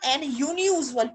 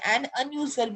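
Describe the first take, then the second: First: The word begins with a 'yoo' sound. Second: The word begins with an 'uh' sound. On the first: The speaker calls it wrong. "आप इसे ये तो नहीं बोलोगे ना" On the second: The speaker calls it right. "एन अनयूजुअल बोलेंगे"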